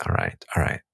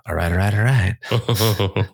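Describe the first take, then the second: First: Low unvoiced drawled all right; breathy low mock McConaughey; Matthew McConaughey. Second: Slow, drawn-out all right all right; lazy Texan drawl, stretched out; Matthew McConaughey. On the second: Retold or imitated. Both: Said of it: "sound like Matthew McConaughey".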